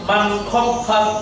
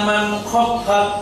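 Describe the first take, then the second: Both takes have the same delivery.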